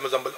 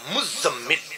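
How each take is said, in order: First: The middle consonants are short and single. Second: The middle consonants are held long and doubled. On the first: The speaker calls it wrong. "तो हम कहते हैं मुजम्मिल मुजम्मिल, ये लफ्ज गलत है" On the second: The speaker calls it right. "लफ्ज है मुजम्मिल। दोनों पे शादत पढ़े"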